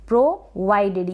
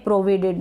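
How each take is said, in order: First: The second vowel sounds like 'eye'. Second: The second vowel is a short 'i' sound. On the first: The speaker calls it right. "ये जो आई आ रहा है इसको यहाँ पर हम आई ही पढ़ रहे हैं" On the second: The speaker calls it wrong. "इसको प्रोविडेड ना पढ़ें"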